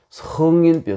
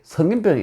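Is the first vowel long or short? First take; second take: long; short. First: The first vowel is held long. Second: The first vowel is kept short. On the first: It names the worry of saints. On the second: It names diseases of adults.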